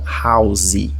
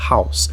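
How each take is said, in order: First: An extra vowel is sounded after the s. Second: The word ends on the s sound. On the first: The speaker calls it wrong. "não house" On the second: The speaker calls it right. "o E, ele não é pronunciado"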